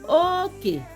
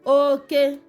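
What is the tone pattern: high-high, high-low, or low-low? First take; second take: high-low; high-high. First: The first syllable is high, the second low. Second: Both syllables are said on a high tone. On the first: It means boundary. "This second one has high and a low tone" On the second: It means male or man. "the tone here is high high tone"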